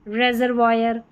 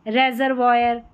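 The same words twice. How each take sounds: Both takes have the same delivery.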